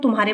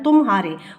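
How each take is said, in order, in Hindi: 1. अक्षर बिना किसी विराम के आपस में जुड़े हुए हैं। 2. पहले अक्षर के बाद एक छोटा विराम आता है। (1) "अगर इसको इकट्ठा कर देते हैं" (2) "अगर इसको हमने अलग करना है"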